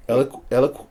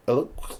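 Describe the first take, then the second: First: "Eloqu-" sounded out twice, halting; trying the name aloud. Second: "eloqu-" breathed out unvoiced; whispered attempt. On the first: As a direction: test "Eloqu-" aloud, unsure of it. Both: Shown as a demonstration. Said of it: "how did you say that?".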